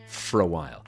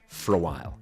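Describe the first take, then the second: Both takes have the same delivery.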